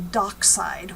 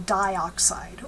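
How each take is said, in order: First: The prefix vowel is dropped: doxide. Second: Both vowels are kept: di-oxide. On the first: The speaker calls it wrong. "We don't we don't say doxide" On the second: The speaker calls it right. "here, we don't drop the vowel"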